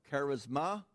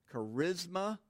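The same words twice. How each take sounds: First: "charisma" as KAR-iz-MAH, weight on first and last; "charisma" sounded out in three parts, KAR-iz-MAH; alternative pronunciation. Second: "Charisma" as kuh-RIZ-muh, stress on the middle; "Charisma" carefully sounded out, kuh-RIZ-muh; first pronunciation variant. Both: Shown as a demonstration. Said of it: "depending on what program you want to listen to".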